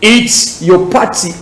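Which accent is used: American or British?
British. It is said in a British accent. "Accent britannique"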